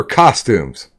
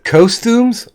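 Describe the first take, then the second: First: "costumes" with an open AH, "kah-stumes"; short O pronunciation. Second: "costumes" with a long O, like "coast-umes"; first syllable of "costumes" rhymes with "gross"; long O pronunciation. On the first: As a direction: say "costumes" starting like "cost". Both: Shown as a demonstration. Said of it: "do you pronounce it costumes or costumes".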